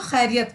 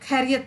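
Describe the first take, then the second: First: The word begins with a raspy throat fricative. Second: The word begins with an aspirated k stop. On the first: The speaker calls it right. "खे से खैरियत होता है। तो हम उसको खैरियत पढ़ेंगे" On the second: The speaker calls it wrong. "खैरियत नहीं पढ़ेंगे"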